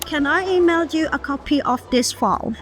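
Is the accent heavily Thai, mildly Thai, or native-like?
native-like. Native-like English accent throughout the sentence. It sounds more professional. The speaker calls it right. "ใส่ accent จริงๆให้มันดู professional มากขึ้น"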